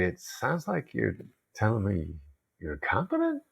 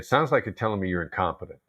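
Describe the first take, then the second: First: It is said in a gentle, non-accusing tone. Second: It is said in an accusing, insulting tone.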